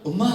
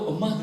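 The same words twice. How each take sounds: First: The word sounds coaxing, like asking a favor. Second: The word sounds warm and thankful. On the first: The speaker wants a favor from the mother. "부탁하러 가가지고 손주 맡겨놓고" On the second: The speaker feels thankful toward the mother. "고마운 마음 담아서도"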